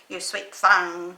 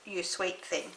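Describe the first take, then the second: First: It is said with a twangy accent. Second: It is said in a plain, neutral accent. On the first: "if you've got a bit of a twang in your voice" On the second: "but it's You Sweet Thing"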